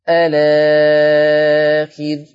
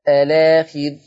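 First: The vowel after the hamza is held medium. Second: The vowel after the hamza is held short. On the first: "ثلث البدل" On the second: "ثلث البدل"

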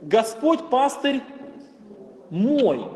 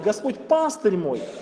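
First: The last word carries the main stress. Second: The middle word carries the main stress. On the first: It stresses that he is the speaker's own shepherd. "Господь не чей-то пастырь, да? ... Он именно мой пастырь" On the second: It stresses what the Lord is to us. "когда мы акцентируем внимание на слово «пастырь»"

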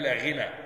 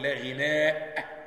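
First: The word ends in a vowel without glottal stop. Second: The word ends in a long vowel and glottal stop. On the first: "بالقصر يعني مقصور" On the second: "بالهمزة"

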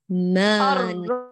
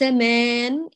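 First: The vowel is a clear, pure open 'a'. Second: The vowel leans toward 'e' with nasal quality. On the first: The speaker calls it right. "أقيم الألف ونقيها" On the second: The speaker calls it wrong. "ليس مان، إمالة كبرى مخنخنة"

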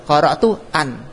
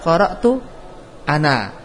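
First: The phrase ends on a bare n sound. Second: The phrase ends on a vowel after the n. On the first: The speaker calls it wrong. "Andaikan alif enggak ditetapkan" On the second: The speaker calls it right. "Ketika wakaf ditetapkan"

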